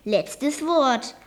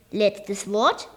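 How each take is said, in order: First: "Letztes Wort" as a statement, falling on "Wort"; firm answer. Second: "Letztes Wort" as a question, rising at the end. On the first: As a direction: settle it, dropping the pitch on "Wort". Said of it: "antwortete der Besitzer". („Letztes Wort“ als feste Antwort, am Ende fallend) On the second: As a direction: let "Wort" lift into a question. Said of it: "fragte Olaf". („Letztes Wort“ fragend, am Ende steigend) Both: A narrator's reading.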